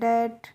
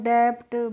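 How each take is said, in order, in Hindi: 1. b silent है। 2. b बोला जाता है। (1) "आपको रूल पता होगा तभी तो इनको पढ़ेंगे" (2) "हो सकता है कि आपको रूल नहीं पता है"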